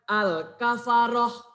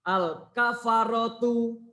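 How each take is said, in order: First: The word ends with a soft h sound. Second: The word ends with a full tu sound. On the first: The reader stops at the end of the phrase. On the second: The reader continues without stopping.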